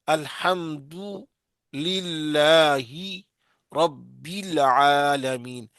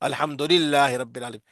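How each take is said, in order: First: The vowels have the clear maroof quality. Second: The vowels have the unclear majhool quality. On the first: The speaker calls it right. "और मारूफ क्या है" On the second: The speaker calls it wrong. "ये मजहूल है।"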